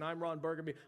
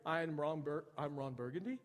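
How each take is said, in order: First: The voice falls at the end like a statement. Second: The voice rises at the end like a question. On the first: He states his name with certainty. The speaker calls it right. "instead of saying, signing off and saying" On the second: He sounds unsure of his own name. The speaker calls it wrong. "Somebody puts a little question mark at the end of the statement"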